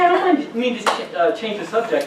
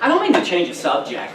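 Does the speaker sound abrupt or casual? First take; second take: casual; abrupt. First: It is said in a light, casual way. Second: It is said in an abrupt, intense way. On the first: The speaker gently steers the group back on track. The speaker calls it right. "if you say it kind of like, hey" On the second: The speaker seems too aggressive. The speaker calls it wrong. "everybody's like, whoa, chill out, man"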